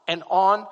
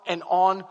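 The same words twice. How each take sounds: The two takes are said the same way.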